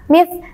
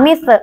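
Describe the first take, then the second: First: The final consonant is held firmly with no release. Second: The final consonant is released with a bounce. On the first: The speaker calls it right. "sin sukun harus ditekan membacanya" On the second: The speaker calls it wrong. "salah ya"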